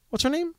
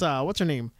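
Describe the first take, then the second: First: "What's her name?" said much higher, rising at the end; straining to recall, voice jumping up; high asking rise. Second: Said in the usual way. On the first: Real, not acted. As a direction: toss the question up high and searching. Asks again, searching memory.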